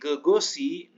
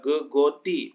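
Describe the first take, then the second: First: The consonant before the final vowel is an S. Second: The consonant before the final vowel is a T. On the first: The speaker calls it right. "berarti gegosi" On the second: The speaker calls it wrong. "jangan dibaca gegoti"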